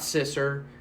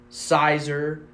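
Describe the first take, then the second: First: It is said with a short 'i' and 's'. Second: It is said with an 'eye' vowel first. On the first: "it's not Sisser" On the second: "It's not Sizer"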